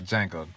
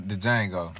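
First: "Django" corrected to Jango, D dropped; silent D in Django. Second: "the Django", with an extra D syllable up front; D sounded in Django. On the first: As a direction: start "Django" straight on the J. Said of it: "D is silent". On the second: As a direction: playfully voice the D before "Django" in "the Django". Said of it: "I just like saying the D in there". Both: Shown as a demonstration.

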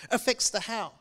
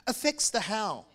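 The two takes are said the same way.

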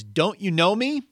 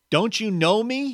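First: Loud, high call; shouted question. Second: High, loud call across to the ghost; shouted question. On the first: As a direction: shout it again across the distance. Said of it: "And he's shouting this at the ghost". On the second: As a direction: shout it to get his attention. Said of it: "he shouted to the ghost". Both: Acted.

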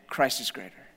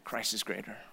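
First: Said in the usual way. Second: Hushed declaration. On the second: Real, not acted. Repeated sermon line, first take hushed.

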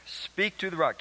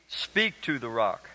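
First: Said in the usual way. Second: "Speak to the rock." slow, every word weighted, stress on "Speak"; emphasized slowly. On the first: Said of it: "Keep that in mind". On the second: Shown as a demonstration. Pastor stressing God's command to the congregation, slow and weighted. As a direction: lean on "Speak", unhurried. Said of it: "I had you pause there and emphasize that".

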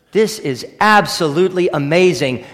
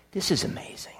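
First: Said in the usual way. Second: Hushed, breathless whisper of wonder; awed whisper. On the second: Real, not acted. Preacher awed before the congregation, whispering. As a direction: whisper it as if struck by awe.

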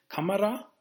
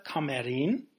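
First: Kamera with the first A stressed; singular Kamera, stress up front. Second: Kameren with the E stressed. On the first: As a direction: lean on the A of Kamera. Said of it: "Das Betonung liegt hier ganz klar auf dem A bei Kamera". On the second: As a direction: lean on the E in Kameren. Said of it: "Daher auch die Betonung des E bei der Mehrzahl". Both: Shown as a demonstration.

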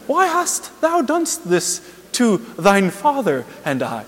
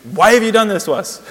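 First: High, slow, stilted scripture voice; exaggeratedly lofty parody of holy speech; mock-pious Mary. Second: Loud, high, exasperated outburst; acted furious scolding, much louder; mad and confused. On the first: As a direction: ham up archaic, saintly solemnity. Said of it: "please don't think that she was like". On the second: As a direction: demand it like an angry, bewildered mother. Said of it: "No, she's mad and confused".

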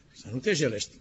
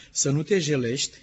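First: Softer, stunned question on "te jelești"; incredulous echo. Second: Said in the usual way. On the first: Acted. Ezekiel echoing God's order, softly incredulous. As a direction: repeat "să nu te jelești" quietly, as if it can't be true.

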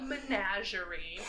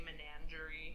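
First: Menagerie with no added N, "muh-NAZH-er-ee"; correct pronunciation. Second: Menagerie with an extra N, "me-NAN-jer-ee"; mispronunciation. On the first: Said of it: "but it's called". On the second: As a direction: slip an N into menagerie, rhyming it with tangerine. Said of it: "I always wanna say". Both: Shown as a demonstration.

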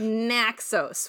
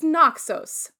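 First: Naxos with a flat nasal Central New York A. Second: Naxos with an open, broad A, said slowly; corrected pronunciation. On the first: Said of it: "the A from Central New York". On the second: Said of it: "No, it's Naxos". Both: Shown as a demonstration.

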